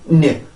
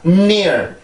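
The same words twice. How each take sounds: First: The n is short and weak before the vowel. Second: The n is pushed strongly through the nose first. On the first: The speaker calls it wrong. "그냥, near, near, near, near. 이렇게 가는 게 아니라" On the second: The speaker calls it right. "앞에, 음, 음, 과 같은 이제 강하게 소리를 밀어내는 그 동작이 있어야 되고"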